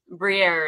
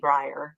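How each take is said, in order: First: The name is said with a French pronunciation. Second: The name is said with an Americanized pronunciation. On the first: This is the family's original form of the name. "Briere is my actual the pronunciation" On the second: This is how the name is said in America. "it's Americanized, so they say Briar"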